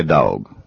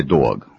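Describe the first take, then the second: First: "dog" said the Southern way, drawn toward "dawg"; Southern pronunciation. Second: "dog" said the New York way, like "doo-awg"; New York pronunciation. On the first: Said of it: "In the South, we say". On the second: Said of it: "In New York, they say". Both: Shown as a demonstration.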